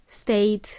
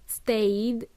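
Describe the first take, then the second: First: "Stayed" ending in a crisp T, like "state". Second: "stayed" ending in a voiced D. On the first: Teacher showing the harder option, "Stayed" ending in T. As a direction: say "Stayed" with a final T. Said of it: "hard to say it with a T". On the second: Teacher modelling the past tense, "stayed" with D. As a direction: say "stayed" with a final D, not T. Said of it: "it's a d sound". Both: Shown as a demonstration.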